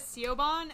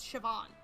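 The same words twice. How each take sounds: First: The name is read out letter by letter as spelled. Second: The name is said in its traditional Irish form. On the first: The speaker calls it wrong. "I was pronouncing it as Siobhan and thought it was a man's name" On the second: The speaker calls it right. "Before I realized it's Siobhan. It's just the original"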